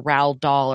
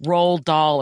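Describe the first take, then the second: First: Roald said like "rowled", rhyming with howled; alternative pronunciation. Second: Roald said as one syllable, like "rolled"; first pronunciation. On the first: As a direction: say Roald with an "ow" vowel. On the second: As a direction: say Roald with a long O. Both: Shown as a demonstration. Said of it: "or however the F you spell it".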